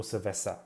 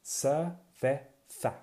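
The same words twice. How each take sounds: First: Cerveza with a plain s sound, ser-ve-sa; Latin American cerveza. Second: Cerveza said very slowly with a lisped th, ser-ve-tha; slow Castilian cerveza. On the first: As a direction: give cerveza the s-sound used outside Spain. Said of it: "depending on where you are". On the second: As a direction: spell out Cerveza slowly with the Spanish z as th. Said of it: "Or cerveza". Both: Shown as a demonstration.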